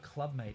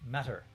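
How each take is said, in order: First: Mate is said as one syllable. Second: Mate is said with two syllables. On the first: The speaker calls it wrong. "And you're saying it wrong" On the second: The speaker calls it right. "It's pronounced matter"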